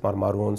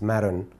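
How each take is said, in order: First: The name is said the Lebanese way. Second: The name is said the American way. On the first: "In Lebanon, we pronounce it Maroon" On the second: "as we pronounce it in the United States"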